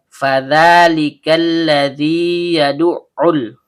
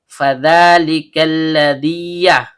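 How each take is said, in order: First: The long vowel is held before the next ya. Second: The long vowel merges into the next ya. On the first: The speaker calls it right. "harus dituntaskan dulu matnya" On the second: The speaker calls it wrong. "Tidak boleh kita baca ... dengan cara idgham mutamatsilin"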